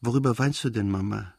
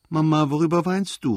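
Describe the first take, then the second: First: Said in the usual way. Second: Higher and louder, close to tears; a whiny call on the edge of crying; tearful cry. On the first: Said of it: "nun völlig erwacht". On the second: A narrator's reading. Boy calls out tearfully to his weeping mother. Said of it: "rief er mit weinerlicher Stimme".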